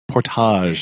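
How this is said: The word has a French-style pronunciation.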